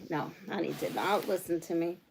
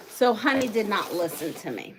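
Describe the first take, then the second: First: Softer, lower aside with weight on not; muttered complaint, not hit; quiet teasing gripe about Honey; mock grumble. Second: Said in the usual way. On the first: Real, not acted.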